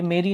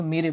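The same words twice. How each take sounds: First: "मेरी" ending in a long ee; misreading with long ee. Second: "मेरे" ending in an ay sound; correct reading with e. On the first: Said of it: "ये मेरी नहीं पढ़ेंगे". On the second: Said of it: "मेरे पढ़ेंगे". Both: Shown as a demonstration.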